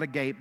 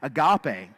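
First: It is said as the English word for open-mouthed. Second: It is said as the Greek word for love. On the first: The mouth is wide open. The speaker calls it wrong. "not agape because your mouth is wide open" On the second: The purest form of love. The speaker calls it right. "Agape is what he was talking about"

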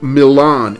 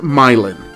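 First: It is said like the Italian city's name. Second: It is said the local Indiana way. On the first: "it looks like it should be pronounced Milan, as in Milan, Italy" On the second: "in Indiana, they pronounce it Milan"

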